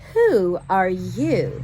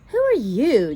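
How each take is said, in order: First: It is said in a grand, haughty voice. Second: It is said in a plain, ordinary voice.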